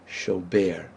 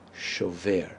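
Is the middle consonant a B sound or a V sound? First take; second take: B; V. First: The middle consonant is a B sound. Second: The middle consonant is a V sound. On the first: The speaker calls it wrong. "my students making the mistake" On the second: The speaker calls it right. "in the present tense it was a vet or a V sound"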